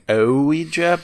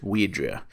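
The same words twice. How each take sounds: First: The word is pronounced in an exaggerated, overdone way. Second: The word is pronounced in a plain, simple way. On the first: The speaker calls it wrong. "I've always kind of maybe overpronounced the Ouija, like" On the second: The speaker calls it right. "but I think it's just"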